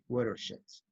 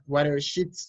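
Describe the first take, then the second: First: The last syllable has an E vowel. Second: The last syllable has an I vowel. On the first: The speaker calls it right. "es más una E a una I" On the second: The speaker calls it wrong. "le pone una I, suena watersheds"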